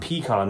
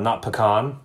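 First: "Pecan" as PEE-kahn, first syllable held long and stressed; PEE-can. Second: "pecan" as puh-KAHN, weak first syllable, stress on KAHN. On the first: Setting the two ways to say the nut side by side, PEE-kahn first. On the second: Setting the two ways to say the nut side by side, puh-KAHN second. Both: Shown as a demonstration. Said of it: "Where do you put the emphasis?".

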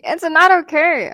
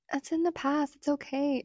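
First: High, loud objection on "not okay"; emphatic rebuttal. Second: Soft, higher-pitched placating imitation; mock soothing. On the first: Acted. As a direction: push back loudly, indignant. Rebuttal to the imitated soothing. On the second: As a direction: mimic someone gently brushing it off. Mimicking boyfriend's soothing dismissal.

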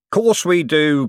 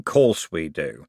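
First: Higher, loud and jovial; booming matey yes; hearty agreement. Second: Lower, slow and savouring; slow satisfied repeat; slow echo. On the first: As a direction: slap the idea on the back. Harry King agrees. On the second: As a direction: roll it round the mouth. Harry King repeats. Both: A narrator's reading.

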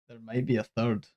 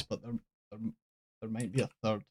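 First: Softer, laughing through the words; laughing repeat. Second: Dropping almost to a murmur, reluctant to break the news; reluctant hush. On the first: Teasing Joy with the third film, laughing softly. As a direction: repeat it while giggling at the disaster. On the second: Admitting to Joy there's a third film, hushed and reluctant. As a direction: say it under your breath like bad news. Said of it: "Joy, I absolutely hate to say this". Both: Real, not acted.

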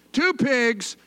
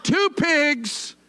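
First: Said in the usual way. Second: "Two pigs" with a long, punched "Two"; stress on two. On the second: Shown as a demonstration. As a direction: lean hard on the word "Two" in "Two pigs". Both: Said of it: "Let's say that".

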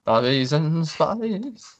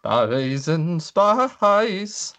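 First: A hammed-up rock-star croon. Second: A hammed-up rock-star croon on request. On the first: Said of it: "my [name] impression". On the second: Shown as a demonstration. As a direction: stretch every word into a crooning impression. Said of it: "Do it again".

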